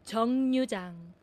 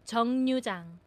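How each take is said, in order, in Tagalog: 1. Nagsisimula ang ikalawang pantig sa tunog na N. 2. Nagsisimula ang ikalawang pantig sa tunog na N.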